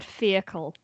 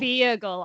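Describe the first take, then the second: First: Feacle with a hard k; "Feacle", rhyming with treacle; misheard pronunciation. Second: Feagle with a voiced g; corrected pronunciation. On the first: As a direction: say "Feacle" with k, not g. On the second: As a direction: say "Feagle" with g, not k. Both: Shown as a demonstration. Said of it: "I thought you said Feacle".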